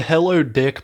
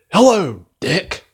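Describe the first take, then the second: First: Said in the usual way. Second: HELLO swoops high and falls, DICK lifts like a question; weird delivery. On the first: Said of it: "part is just so". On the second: Retold or imitated. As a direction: imitate an oddly delivered movie greeting. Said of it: "weirdly delivered".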